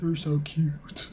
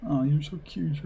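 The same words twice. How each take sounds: First: Slow, drawn-out sugary coo; fawning girlfriend. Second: Put-on fawning girlfriend. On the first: Acted. Girlfriend repeats it to her boyfriend, slow and cooing. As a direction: stretch every word lovingly. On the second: Girlfriend fawns over her boyfriend at the bar, cooing. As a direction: gush over him like a smitten teen.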